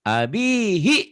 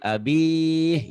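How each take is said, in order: First: The word ends with a final vowel. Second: The final vowel is dropped at the stop.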